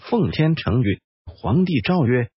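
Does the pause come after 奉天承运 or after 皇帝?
after 奉天承运. The pause comes after 奉天承运.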